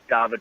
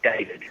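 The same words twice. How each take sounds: First: The name is said with Swedish vowels. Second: The name is said with English vowels. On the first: "kept it as David pronunciation" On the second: "the English David"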